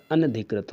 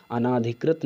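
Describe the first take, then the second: First: अनधिकृत with a short, quick na; correct short a. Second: अनाधिकृत with a long naa; wrong long aa. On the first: Teacher giving the right word, अनधिकृत with short a. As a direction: keep the second vowel of अनधिकृत short. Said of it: "अनधिकृत होता है". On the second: Teacher citing the error, अनाधिकृत with long aa. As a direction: stretch the second vowel of अनाधिकृत. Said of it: "अनाधिकृत नहीं होता". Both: Shown as a demonstration.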